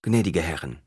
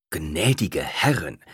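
First: Said in the usual way. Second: Slow, reproachful address. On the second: A narrator's reading. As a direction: chide her slowly. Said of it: "mit vorwurfsvoller Stimme".

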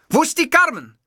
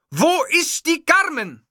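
First: High, loud furious call for Carmen; shouting demand. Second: High, drawn-out repeated shout; slow insistent yell. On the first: Enraged host yelling for Carmen. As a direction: bellow the question. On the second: Enraged host repeating his demand slowly. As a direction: stretch every word in fury. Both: Acted.

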